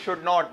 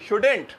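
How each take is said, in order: First: The two words are said in full. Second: The words are contracted into one word. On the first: The speaker calls it wrong. "अरे नहीं भाई" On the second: The speaker calls it right. "सही है भाई"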